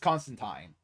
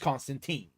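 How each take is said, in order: First: The name is said the British way. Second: The name is said the American way. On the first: This is the original, proper form of the name. "the proper pronunciation of it is Constantine" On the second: This is the form used in the American film. "the American movie adaptation, which is Constantine"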